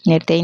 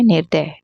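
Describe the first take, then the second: First: निर्दयी said as "nirdayi"; wrong form. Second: निर्दय said as "nirday"; correct form. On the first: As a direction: end निर्दयी on a long "ee". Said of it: "नहीं होता है". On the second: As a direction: end निर्दय without any "ee". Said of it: "निर्दयी नहीं होता है". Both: Shown as a demonstration.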